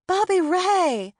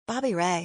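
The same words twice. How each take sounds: First: High, loud, stretched joyful shout of his name; delighted cry. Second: Said in the usual way. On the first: A narrator's reading. Delighted greeting of old friend.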